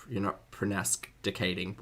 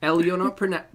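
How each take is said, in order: First: "pronasticating" said with a stray n, quieter; mangled word. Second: Prona- cut off mid-word; stumbling pronunciation. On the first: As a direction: mispronounce procrastinating as "pronasticating". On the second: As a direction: start "pronasticating" and break off at prona-. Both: Shown as a demonstration. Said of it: "English, [name]. Learn it".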